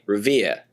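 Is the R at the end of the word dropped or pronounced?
dropped. The final R sound is dropped. "A lot of people in Boston don't, ... but they'd say Revere"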